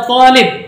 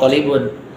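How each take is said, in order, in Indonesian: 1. Katanya berhenti sebelum akhiran -un. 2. Katanya berakhir dengan akhiran -un yang utuh. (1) "Hada talib" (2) "dia udah nggak ngomong talibun"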